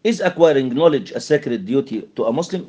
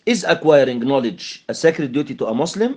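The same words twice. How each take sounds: First: Slow question with the voice rising at the end; slow yes-no question, pitch climbing on Muslim; rising question tune. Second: Slow yes-no question ending on a rise; a slow, careful classroom question with rising intonation; rising question tune. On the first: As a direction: ask it slowly, lifting the final word Muslim. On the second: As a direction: lift the voice on Muslim as you ask. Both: Shown as a demonstration. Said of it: "Rising intonation".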